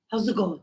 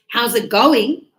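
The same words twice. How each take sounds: First: Low, run-together "how's it going"; casual greeting. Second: Loud, clearly separated "how's it going"; emphatic repeat. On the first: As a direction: imitate a tossed-off "how's it going". Retells ex's casual greeting. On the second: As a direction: imitate repeating "how's it going" for someone puzzled. Ex repeats greeting, not understood. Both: Retold or imitated.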